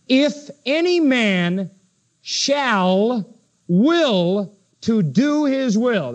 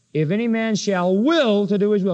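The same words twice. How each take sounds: First: Slow, deliberate, leaning on "will" in "shall will"; preacher reading the verse as it should read, drawing out "will"; stress on will. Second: Said in the usual way. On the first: Shown as a demonstration. Pastor teaching the congregation the Greek reading, slowly stressing "will". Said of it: "It should read like this". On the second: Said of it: "That's the way that phrase should read".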